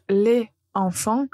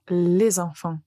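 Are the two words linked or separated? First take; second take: separated; linked. First: A pause separates the words, with no linking sound. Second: A z sound links the words with no pause. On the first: The speaker calls it wrong. "vous faites une pause qui n'est pas naturelle" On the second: The speaker calls it right. "c'est beaucoup plus facile de dire les enfants"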